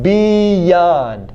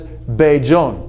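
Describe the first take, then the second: First: The middle consonant is a y sound. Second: The middle consonant is a j sound. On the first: The speaker calls it right. "These are the correct sounds up here" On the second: The speaker calls it wrong. "So what I heard was Beijon"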